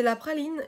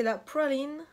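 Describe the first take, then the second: First: Said in the usual way. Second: PRALINE drawn out slowly in an English accent; put-on English accent. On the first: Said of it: "je sais pas dire en français ça". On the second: Real, not acted. Vlogger naming a French-named palette by mistake in English accent. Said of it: "Pourquoi je prends un accent".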